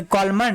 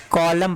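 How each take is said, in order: First: कॉलमन with an extra "-man" ending; wrong reading, N sounded. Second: कॉलम ending on M; correct reading, silent N. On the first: Teacher testing students with the wrong reading, कॉलमन with N pronounced. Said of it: "नहीं, इसको कॉलम पढ़ते हैं". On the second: Teacher correcting the misreading for students, कॉलम with silent N. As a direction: drop the N and close कॉलम on M. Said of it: "इसको क्या पढ़ेंगे". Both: Shown as a demonstration.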